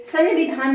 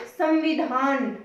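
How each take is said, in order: First: संविधान said as "san-vidhaan"; an n closing the first syllable of संविधान; wrong pronunciation. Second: संविधान slowly as "sam-vidhaan"; slight "m" sound. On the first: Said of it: "नहीं बोलते". (संविधान को न की ध्वनि से, "सन्विधान") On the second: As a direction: stretch out संविधान with a light m before v. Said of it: "थोड़ी सी ध्वनि". (संविधान को धीरे से "सम्विधान", हल्की म ध्वनि) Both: Shown as a demonstration.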